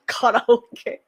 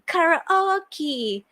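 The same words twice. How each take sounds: First: It is said with a Japanese accent. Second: It is said with an American accent. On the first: The speaker calls it right. "I'm like" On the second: The speaker calls it wrong. "Americans like to uh, say everything that ends with e ... like as e"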